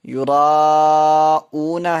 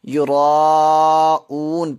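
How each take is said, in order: First: The word ends with a final vowel. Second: The word ends on a bare consonant. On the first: The reading continues without stopping. "युराऊना है" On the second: The reader stops on this word. "रुकने की सूरत में इसके ऊपर जज़म लगेगी। तो युराऊन पढ़ेंगे"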